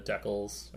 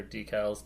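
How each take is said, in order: First: Decals said as DECK-ulz; short E in decals, like deck, unstressed ending; DECK-uls pronunciation. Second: Decals said as DEE-kalz; long EE opening decals; DEE-cals pronunciation. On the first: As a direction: say decals to rhyme with freckles. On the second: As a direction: say decals starting like dee, with a full second vowel. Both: Shown as a demonstration. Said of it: "depending on where you're listening".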